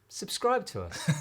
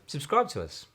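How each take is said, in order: First: It sounds between pleading and casual. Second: It sounds very relaxed and casual.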